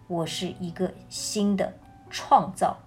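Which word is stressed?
创造. The stress is on the word 创造.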